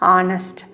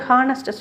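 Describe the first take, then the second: First: The word begins with a vowel sound. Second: The word begins with an h sound. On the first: The speaker calls it right. "சரியாக pronounce பண்ணும்போது" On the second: The speaker calls it wrong. "ஹானஸ்ட் சொல்லக்கூடாது"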